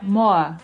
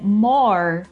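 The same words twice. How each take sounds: First: It is said without a final R. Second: It is said with a final R.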